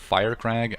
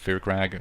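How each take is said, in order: First: The name begins with a sound like 'fire'. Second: The name begins with a sound like 'fear'. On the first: This is how the game itself says it. The speaker calls it right. "they pronounce it Firecrag" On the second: This is the speaker's own habitual way. The speaker calls it wrong. "I always pronounce it Fearcrag"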